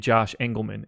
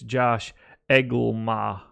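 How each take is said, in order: First: The surname is said with its N sounds. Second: The surname is said without its N sounds. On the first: The speaker calls it wrong. "my name is not actually Josh Engelman" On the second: The speaker calls it right. "Those N's are silent, man"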